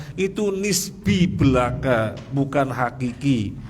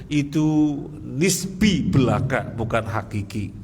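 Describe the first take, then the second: The two takes are said the same way.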